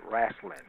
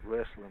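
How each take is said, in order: First: It is said in a Southern US accent. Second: It is said in a general American accent.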